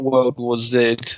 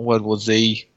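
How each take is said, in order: First: The last letter is said as British zed. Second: The last letter is said as American zee.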